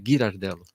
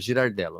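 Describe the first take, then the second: First: The name starts with a hard G sound. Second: The name starts with a soft J-like sound. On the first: This is the correct Italian pronunciation. The speaker calls it right. "o correto em italiano é" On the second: This is how people usually read the name. The speaker calls it wrong. "as pessoas me chamam de Gi, eu não corrijo porque falam Girardello"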